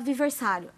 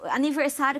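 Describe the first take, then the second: First: The second syllable starts with a v sound. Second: The second syllable starts with an n sound. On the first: The speaker calls it wrong. "que a gente fala aviversário" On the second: The speaker calls it right.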